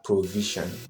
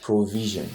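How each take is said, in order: First: The first syllable has a full 'oh' vowel. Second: The first syllable has a weak 'uh' vowel. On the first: The speaker calls it wrong. "So it's not provision" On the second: The speaker calls it right. "it's provision"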